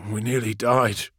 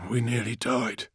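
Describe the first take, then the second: First: Breathy, stunned repetition; breathy repeat. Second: Breathy, softer disbelief. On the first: Friedrich repeating himself amid the battle, breathy and dazed. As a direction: repeat it half to yourself, breathily. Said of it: "Friedrich repeated". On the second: Friedrich to Call after nearly dying, breathy. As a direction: say it on a shaken breath. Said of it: "he said breathily". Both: A narrator's reading.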